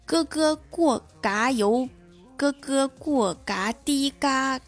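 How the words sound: It is said with a heavy Cantonese accent.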